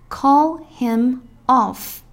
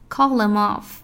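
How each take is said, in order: First: Each sound is said fully and clearly. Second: Sounds are shortened and run together.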